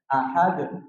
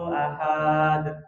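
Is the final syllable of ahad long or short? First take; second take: short; long. First: The final syllable is kept short. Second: The final syllable is drawn out long. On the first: The speaker calls it right. "semuanya pendek" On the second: The speaker calls it wrong. "akhir ayat itu panjang ya"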